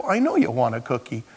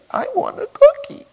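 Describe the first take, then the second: First: Said in the usual way. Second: High, loud mock toddler wail; crying toddler. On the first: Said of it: "I'm gonna converse with the two-year-old". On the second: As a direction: imitate a tearful two-year-old's demand. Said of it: "Why are you crying?".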